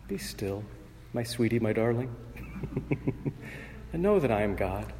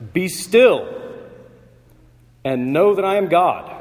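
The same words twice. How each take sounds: First: Much softer, cooing like a lullaby with a little laugh. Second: Much louder and higher, a commanding shout. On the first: Preacher mocking the gentle reading, soft cooing lullaby. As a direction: coo it sweetly to calm a troubled soul. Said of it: "softly and sweetly, like a lullaby, cooed". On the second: God silencing the raging nations, a thunderous commanding shout. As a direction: ring it out like an operatic crescendo. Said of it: "shouted out almost". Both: Shown as a demonstration.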